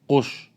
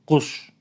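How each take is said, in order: The two takes are said the same way.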